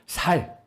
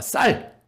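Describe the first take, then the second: First: The word starts with a plain s sound. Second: The word starts with a tense s sound. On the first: The speaker is revealed as coming from Gyeongsang. The speaker calls it wrong. "그거 똑같은 발음이 안 되는 거죠" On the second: The one testing says the word correctly. The speaker calls it right. "다시 해봐"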